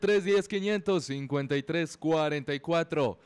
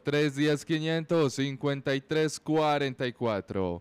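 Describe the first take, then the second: First: The number is said at normal speed. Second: The number is said more slowly.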